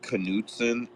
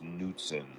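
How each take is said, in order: First: The initial K is pronounced. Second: The initial K is silent. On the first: The speaker calls it wrong. "it is not Knutson" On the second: The speaker calls it right. "It is just Knutson"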